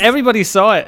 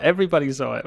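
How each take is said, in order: First: Higher, louder mock alarm; excited. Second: Said in the usual way. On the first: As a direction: exclaim it like a panicked newbie. Mocking fear of going viral.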